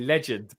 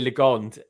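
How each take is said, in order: First: The second syllable is said like 'gend'. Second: The second syllable is said like 'gond'. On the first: The speaker calls it right. "It's meant to be legend" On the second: The speaker calls it wrong. "everyone always says Larry Legond, and it's not"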